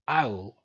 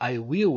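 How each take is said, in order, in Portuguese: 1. As palavras se juntam em uma sílaba curta. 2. As duas palavras são ditas por completo e separadas. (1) "ele falaria I'll" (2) "ao invés de falar I will"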